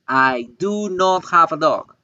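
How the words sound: It is said emphatically with separated words. The speaker insists on not having a dog. "quiero hacer énfasis en que no tengo perro"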